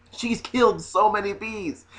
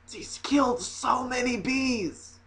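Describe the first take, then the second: First: Said in the usual way. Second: Slow, high and hushed; drawn-out, softly appalled lament; mock horror. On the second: Comic lamenting the bees the woman killed, mock horror.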